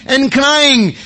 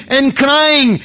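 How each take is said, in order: Both takes have the same delivery.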